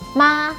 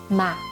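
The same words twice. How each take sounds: First: The pitch stays high and level. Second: The pitch is short, light and unstressed. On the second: "fifth or neutral tone"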